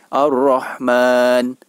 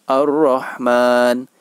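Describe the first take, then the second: The two takes are said the same way.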